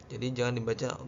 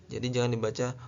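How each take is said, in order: The two takes are said the same way.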